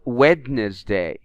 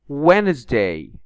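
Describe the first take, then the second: First: The silent letter is pronounced aloud. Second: The silent letter is not pronounced. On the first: The speaker calls it wrong. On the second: The speaker calls it right.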